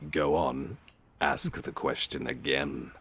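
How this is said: It is said in a sinister tone, like Death.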